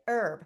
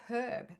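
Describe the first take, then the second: First: It is said in an American accent. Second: It is said in a non-American accent.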